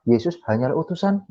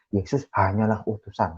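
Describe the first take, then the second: First: The voice rises at the end like a question. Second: The voice falls at the end like a statement. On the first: "kalau dirubah eh, apa ini logatnya Yesus penekanannya" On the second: "artinya ya memang ternyata Yesus adalah utusan"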